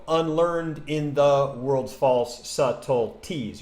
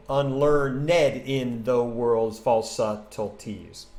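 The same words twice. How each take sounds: First: Slow scanned line, "unlearned" as un-LEARND; two-syllable unlearned. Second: Very slow scanned line, "unlearned" as un-LEARN-ED; three-syllable unlearned. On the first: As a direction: count out the beats with "unlearned" clipped to two syllables. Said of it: "if you say unlearned, you go". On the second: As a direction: count out ten beats, stretching "unlearned" into three syllables. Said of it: "You end up with nine". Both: Shown as a demonstration.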